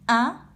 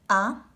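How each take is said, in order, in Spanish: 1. La vocal se pronuncia con aire por la nariz. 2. La vocal se pronuncia solo por la boca. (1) "se vuelven nasales con este acento. Y se dice a" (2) "Esas son las vocales orales. Estas son a"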